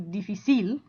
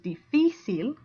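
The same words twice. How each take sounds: First: The stress is on the last syllable. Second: The stress is on the middle syllable. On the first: The speaker calls it wrong. "should theoretically go" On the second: The speaker calls it right. "stress goes more on the second I after the F"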